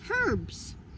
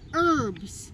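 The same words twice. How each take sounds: First: The word starts with an h sound. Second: The word starts without an h sound. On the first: "But in British English, you can say" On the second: "in American English ... the H is silent"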